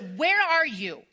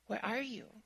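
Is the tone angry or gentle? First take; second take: angry; gentle. First: It is said in an angry, accusing tone. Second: It is said in a gentle, caring tone.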